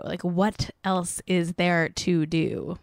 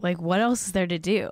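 First: "what else is there to do" stretched out slowly; slow, drawn-out repeat. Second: Said in the usual way. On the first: Shown as a demonstration. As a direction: drag the rhetorical question out, deadpan.

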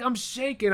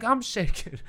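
First: High-pitched mock fan thrill; lightly hammed-up starstruck fan; excited fan. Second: High mock-fan echo; lightly hammed-up echo of a fan; parroted excitement. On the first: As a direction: imitate an overexcited fan, pitched up. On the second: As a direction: parrot the fan's thrill right back. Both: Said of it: "I just say stuff right back".

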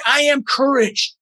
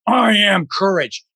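First: "am" lifted high in a slow affirmation; stress on AM. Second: "I" stretched out long and slow; slow affirmation leaning on a drawn-out "I"; stress on I. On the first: Coach affirming himself through stress, stress on "am". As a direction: slowly, pitch up, press on "am". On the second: Coach affirming himself through stress, stress on "I". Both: Shown as a demonstration. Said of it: "you emphasize different words".

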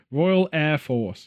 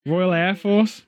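First: Slow, spelled-out Royal Air Force; slow explaining. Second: Said in the usual way. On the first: Shown as a demonstration. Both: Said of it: "I'm just gonna tell you internationally".

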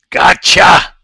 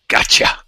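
First: "Gotcha" much higher and loud; triumphant gotcha. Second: A voiceless whispered "Gotcha". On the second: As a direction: breathe "Gotcha" like a secret. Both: Real, not acted. Quiet then loud triumphant gotcha.

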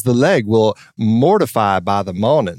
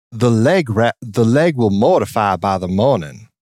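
First: Southern line with the R in mortify sounded; imitating a Southern accent that slips rhotic. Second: Drawled Southern line without the R; imitating a non-rhotic Southern belle. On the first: Imitating Kidman slipping into a rhotic Southern accent. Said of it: "she switches from non-rhotic to rhotic". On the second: Imitating Nicole Kidman's non-rhotic Southern line. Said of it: "but Nicole Kidman goes".

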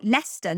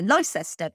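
First: Said in the usual way. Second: Leicester said as LIE-sester; phonetic mispronunciation. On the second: Shown as a demonstration. Host showing how Americans misread towns, Leicester as LIE-sester. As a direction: sound out Leicester in three syllables, "lie-ses-ter". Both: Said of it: "American people pronounce towns".

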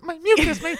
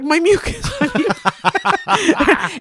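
First: A quick falsetto send-up; mock squeal. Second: High, laughing, stretched-out wail; laughing whimper. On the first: Friend mimicking her mucus cry, high mock squeal. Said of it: "you fell and you're like". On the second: Retold or imitated. Holding her hand to her partner, high laughing wail. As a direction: drag out the last word, giggling and high. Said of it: "being like".

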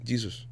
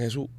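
First: Jesus said the English way, with a J sound; English "Jesus" dropped into Spanish speech; English pronunciation. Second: Said in the usual way. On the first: Shown as a demonstration. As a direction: say "Jesus" as English speakers do, starting like "jee". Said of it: "¿entiendes?". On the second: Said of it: "no le dicen Jesus".

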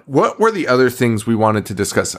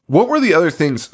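First: Said in the usual way. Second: Words around a sip of wine; talking between sips; while sipping a drink. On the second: Real, not acted. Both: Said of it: "Sorry, I'm drinking wine".

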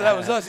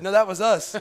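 First: Higher and louder, still amused; amused repeat. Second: Laughing through the line, higher and louder. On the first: Repeating the punchline to the old man, amused. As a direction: say the punchline again with a grin. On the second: Laughing as he tells the old man it was them. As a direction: chuckle the punchline out. Laughing retelling his joke. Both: Retold or imitated.

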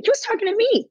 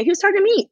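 First: High, incredulous emphasis; outraged disbelief, pitched way up; can you believe he meant me; indignant. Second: Rising outrage at being addressed; more indignant. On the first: Indignant retelling of op-ed. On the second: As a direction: hammer it home in disbelief. Repeats it even louder. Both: Real, not acted.

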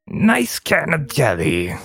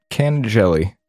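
First: Goblin in character. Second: Said in the usual way. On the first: Acted. Streamer testing a substitute word, hammed-up goblin voice. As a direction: savour it like a creepy goblin. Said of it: "Even in character". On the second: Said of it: "let's just say a nice".

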